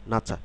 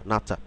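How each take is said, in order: First: The second syllable starts with an aspirated ch. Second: The second syllable starts with an aspirated ch.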